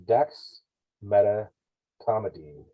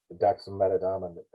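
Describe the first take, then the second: First: "Dexmedetomidine" spelled out very slowly, syllable by syllable: dex-me-de-to-mi-dine; careful slow pronunciation. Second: "dexmedetomidine" rushed and slurred as "daksem-metadomin"; fumbled drug name. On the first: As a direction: sound out "Dexmedetomidine" slowly to get it right. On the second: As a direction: trip over "dexmedetomidine" at normal speed. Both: Shown as a demonstration. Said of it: "I can never say this right".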